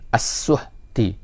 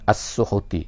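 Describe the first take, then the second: First: The h has no vowel after it. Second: The h is followed by a u vowel. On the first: This is the reading followed here. "kita bacakan dengan mati hak tu. Jadi as-suhti" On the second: This is another accepted reading. "dibacakan dengan baris hadapan"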